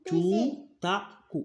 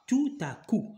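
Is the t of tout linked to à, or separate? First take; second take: separate; linked. First: The final t of tout is not sounded. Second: The t of tout links onto à. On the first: The speaker calls it wrong. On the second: The speaker calls it right. "je dois mettre la liaison"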